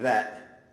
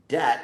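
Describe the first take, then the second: First: It begins with a th sound. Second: It begins with a d sound. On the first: "rather than that" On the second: "dat rather than that"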